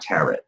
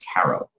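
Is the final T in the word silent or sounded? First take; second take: sounded; silent. First: The final T is sounded. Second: The final T is silent. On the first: The speaker calls it wrong. "it's not tarot" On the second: The speaker calls it right. "The T is silent because it's French"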